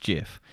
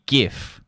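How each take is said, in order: First: "gif" pronounced as "jif"; soft-G gif. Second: "gif" with the hard G of graphic. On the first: Podcaster quoting the creator's pronunciation, soft-G "gif". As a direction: start "gif" with a J sound. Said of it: "said it's pronounced gif". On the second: Podcaster settling the debate, hard-G "gif". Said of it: "because G for graphic". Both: Shown as a demonstration.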